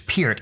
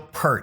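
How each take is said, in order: First: The vowel sounds like the one in 'beer'. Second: The vowel sounds like the one in 'her'. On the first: The speaker calls it right. "It's [name]. It rhymes with beer and ear" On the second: The speaker calls it wrong. "don't say Neil Peart. He hates it"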